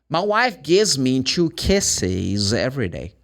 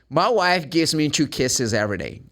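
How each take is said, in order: First: The sentence is spoken slowly and carefully. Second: The sentence is spoken quickly with words linked.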